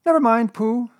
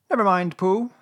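First: High, loud, impatient little voice; impatient Piglet. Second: High little consoling voice; comforting Piglet. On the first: Piglet brushing Pooh off over the question, impatient. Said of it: "said Piglet impatiently". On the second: Piglet cheering up left-out Pooh, comforting. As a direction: console a friend, pitched high. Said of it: "said Piglet comfortingly". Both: A narrator's reading.

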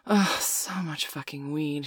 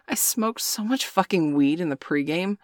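First: Grumbling. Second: Said in the usual way. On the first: A narrator's reading. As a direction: mutter it slowly under your breath. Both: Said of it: "she grumbled".

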